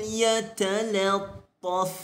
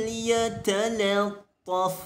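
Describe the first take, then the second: Both takes have the same delivery.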